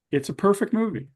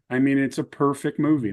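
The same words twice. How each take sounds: First: "perfect" raised high and held; praising the film, with "perfect" sung out higher; stress on perfect. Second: Said in the usual way. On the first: Real, not acted. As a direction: lift the word "perfect" with real admiration.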